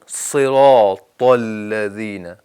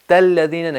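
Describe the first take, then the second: First: The t sound is heavy, with a full mouth. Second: The t sound is light and thin. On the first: The speaker calls it right. "बोल्ड करें" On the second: The speaker calls it wrong. "तल लज़ीना नहीं पढ़ना"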